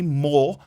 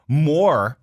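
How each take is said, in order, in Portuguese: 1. É dita com sotaque britânico. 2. É dita com sotaque americano. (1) "more é mais o britânico" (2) "More seria mais o americano"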